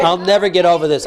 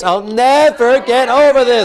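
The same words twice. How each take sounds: First: Said in the usual way. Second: Drawn-out, emphatic NEVER; modelled anguished anger. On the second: Shown as a demonstration. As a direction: hammer out the vow in anguish. Intensified take for client.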